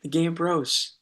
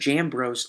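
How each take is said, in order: First: The name starts with a hard G sound. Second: The name starts with a J sound. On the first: This is how the family says the name. "It'll be the Game Bros" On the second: This is another way of saying the name that the family does not use. "if you pronounce it that other way, but we don't"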